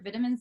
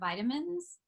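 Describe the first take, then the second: First: It is said in a South African accent. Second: It is said in an American accent.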